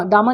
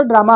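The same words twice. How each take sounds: First: ड्रामा said as dama, dropping the r; ड्रामा mispronounced with no r sound; wrong pronunciation. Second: Said in the usual way. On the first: Shown as a demonstration. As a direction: say ड्रामा as a wrong "daama" without the r. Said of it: "ड्रामा नहीं होता". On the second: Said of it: "ड्रामा आपका होता है".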